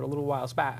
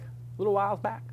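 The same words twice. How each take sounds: First: It is said in his ordinary accent. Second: It is said in a put-on southern accent.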